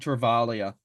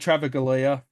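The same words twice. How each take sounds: First: The G in the middle is silent. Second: The G in the middle is pronounced. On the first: The speaker calls it right. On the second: The speaker calls it wrong.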